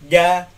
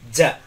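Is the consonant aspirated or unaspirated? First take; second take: unaspirated; aspirated. First: The consonant is said without a puff of breath. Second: The consonant is said with a puff of breath. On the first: The speaker calls it right. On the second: The speaker calls it wrong.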